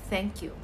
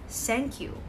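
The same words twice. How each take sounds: First: The first sound is a soft th sound. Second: The first sound is not a th sound. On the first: The speaker calls it right. "instead of saying thank you" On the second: The speaker calls it wrong. "They will simply say thank you"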